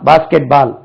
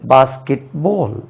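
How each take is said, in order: First: The vowel in 'ball' is an open 'aa'. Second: The vowel in 'ball' is a rounded 'aw'. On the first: The speaker calls it wrong. "நம்ம சொல்றது பாருங்க, பால்" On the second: The speaker calls it right. "அது வந்து basket போல்"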